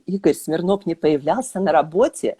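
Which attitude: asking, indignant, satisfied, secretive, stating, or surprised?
surprised. It is said with a surprised tone. The speaker did not expect this. "с удивлением"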